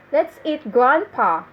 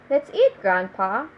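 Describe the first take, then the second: First: "Let's eat, grandpa" with the weight on "Let's"; intonation demo. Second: Rising on "eat", then "grandpa" lower and rising; intonation demo. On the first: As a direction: stress on "Let's", falling at "grandpa". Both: Shown as a demonstration. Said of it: "if you put intonation in some words".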